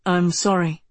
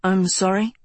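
First: Lower-voiced man, "sorry" falling like a statement; low, polite apology from a stranger. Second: "sorry" rising into a question; polite query with a rise on "sorry"; puzzled query. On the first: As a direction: repeat "I'm sorry" low, with a falling end. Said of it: "he repeated". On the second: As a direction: say "I'm sorry" as a puzzled question, lifting at the end. Stranger answers her, not recognizing. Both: A narrator's reading.

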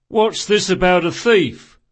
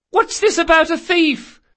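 First: Loud, raised demand; watch sergeant. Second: Very high, loud question; granddaughter calling down. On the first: Sergeant running up to the scene, loud demanding question. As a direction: demand it like an arriving officer. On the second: Granddaughter upstairs to grandmother, high called question. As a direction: call down in a high girlish voice. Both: Acted.

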